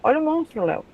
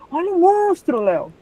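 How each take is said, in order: First: It is said in a relaxed, casual tone. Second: It is said in a frightened, alarmed tone.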